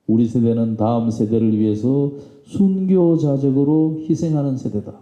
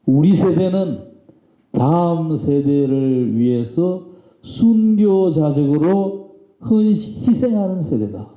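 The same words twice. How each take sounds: First: Said in the usual way. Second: Slow, higher-pitched oratorical declaration; stretched-out, raised-voice rallying quote; proclaimed. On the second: Retold or imitated. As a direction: proclaim it like a leader addressing a crowd. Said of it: "그렇게 외친 거예요".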